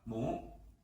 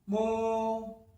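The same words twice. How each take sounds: First: The pitch rises from mid to high. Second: The pitch stays high and level.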